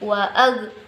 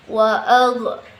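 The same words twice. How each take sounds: First: The final consonant stops cleanly with no bounce. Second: The final consonant ends with an echoing bounce. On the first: The speaker calls it right. "dia berhenti" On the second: The speaker calls it wrong. "ada kayak pantulan"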